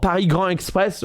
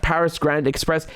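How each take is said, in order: First: Paris Grand Express said the French way, silent s in Paris; French pronunciation. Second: Said in the usual way. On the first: Shown as a demonstration. Recalling a rail project's name, Paris Grand Express in French pronunciation.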